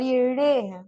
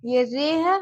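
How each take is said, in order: First: "रे" said as a flapped ड़े; slow retroflex flap in "रे", like ṛe; retroflex R demo. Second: "रे" with a tapped R, drawn out; slow, clear "रे" as re; plain R demo. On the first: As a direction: curl the tongue back and flap on "रे". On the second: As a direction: tap the tongue behind the teeth on "रे". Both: Shown as a demonstration. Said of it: "मैं जो बोल रही हूँ उस पे ध्यान देना".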